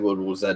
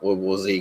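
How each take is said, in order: First: The letter Z is said the non-American way. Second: The letter Z is said the American way. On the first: "I'm going to say" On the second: "not World War Z, because I'm not American"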